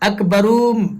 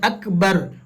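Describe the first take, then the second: First: The word ends with an added 'um' sound. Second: The word ends cleanly on the 'r' sound. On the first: The speaker calls it wrong. "इस तरीके से नहीं" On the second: The speaker calls it right. "इस तरीके से बोलकर रुक जाना"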